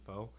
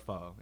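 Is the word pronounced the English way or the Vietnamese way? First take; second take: English; Vietnamese. First: The word is said with an English pronunciation. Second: The word is said with a Vietnamese pronunciation. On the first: The speaker calls it wrong. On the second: The speaker calls it right.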